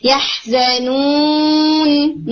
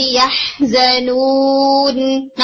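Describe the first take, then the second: First: يَحْزَنُونَ very slow, nun pressed hard; wrong pressed nun. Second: يَحْزَنُونَ very slow, nun resonating lightly in the nose; correct nasal nun. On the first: Teacher showing the overdone nun. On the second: Teacher modelling the right nun. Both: Shown as a demonstration. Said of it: "اسے نون دبا کے نہیں".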